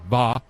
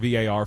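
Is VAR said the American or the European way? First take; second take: European; American. First: The term is said the European way. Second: The term is said the American way. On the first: "I'm going with the European pronunciation" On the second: "It is no longer V A R for me"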